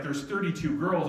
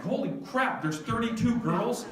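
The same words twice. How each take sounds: First: Said in the usual way. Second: High-pitched incredulous question; mock-panicked, voice shooting up at the end; shocked disbelief. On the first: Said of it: "she's like". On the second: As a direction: repeat the news back in alarm. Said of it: "I'm like".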